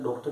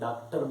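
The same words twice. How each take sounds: First: The first vowel is a rounded 'aw' sound. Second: The first vowel is an open 'aa' sound. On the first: "डॉक्टर की जगह पर" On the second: "अधिकतर ... डॉक्टर बोलते हैं"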